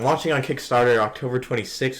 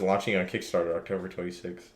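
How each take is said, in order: First: It is said at a louder volume. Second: It is said at a quieter volume.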